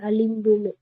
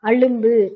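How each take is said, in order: First: The second syllable has an 'i' vowel. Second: The second syllable has a 'u' vowel. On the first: This is the written form. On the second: This is the colloquial form.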